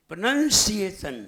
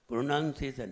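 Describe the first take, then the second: First: प्रोनंसिएशन as "pra-nan-si-ay-shan", strong on "si"; correct pronunciation. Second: प्रोनंसिएशन run together softly as "pronaun-sesan"; mispronounced. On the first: Preacher teaches the right form, emphatic syllables in प्रोनंसिएशन. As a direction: punch out every syllable of प्रोनंसिएशन, especially the middle "si-ay". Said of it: "बोलना सीखिए". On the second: Preacher echoes the listeners' mistake, slurred wrong pronunciation of प्रोनंसिएशन. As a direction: say प्रोनंसिएशन slackly, losing the "si-ay" in the middle. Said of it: "फिर गलती कर दी". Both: Shown as a demonstration.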